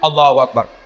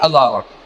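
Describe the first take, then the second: First: It is said with far too much energy. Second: It is said sleepily, with low energy.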